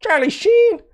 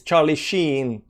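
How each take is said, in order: First: "Charlie Sheen" way up high, "Sheen" held; squeaky exaggeration. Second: Slow "Charlie Sheen", the ee in "Sheen" held; long double-E. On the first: Exaggerated repeat of the name. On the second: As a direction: stretch the vowel of "Sheen", softly. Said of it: "it's with two E's". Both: Shown as a demonstration.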